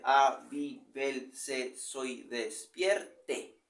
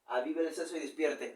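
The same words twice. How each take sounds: First: Slow, stretched, every syllable counted. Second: Said in the usual way. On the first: Shown as a demonstration. Teacher counting syllables of the verse for students, slowly. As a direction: drag the line out to count it. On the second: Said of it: "plain reading before counting".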